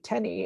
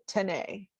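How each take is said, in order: First: The name rhymes with penny. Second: The name does not rhyme with penny. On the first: This is the name's real pronunciation. The speaker calls it right. "it's actually Tenny. It rhymes with penny" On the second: It makes the name sound fancy. The speaker calls it wrong. "the only place anybody has ever tried to pronounce it Tenney"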